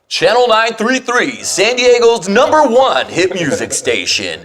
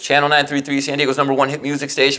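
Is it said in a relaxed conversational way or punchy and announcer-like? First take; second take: punchy; conversational. First: It is spat out in a punchy announcer style. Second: It is said in a relaxed, conversational way.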